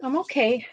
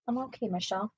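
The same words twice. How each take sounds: First: Said in the usual way. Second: Much softer, to herself; reassuring herself under her breath; softer reassurance. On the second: Real, not acted. Telling viewer Michelle she's fine, softly.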